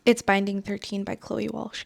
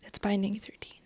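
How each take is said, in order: First: Said in the usual way. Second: Hushed, breathy whisper of the title. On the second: Shown as a demonstration. Telling her viewers the book title, in a whisper. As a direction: whisper it like a secret.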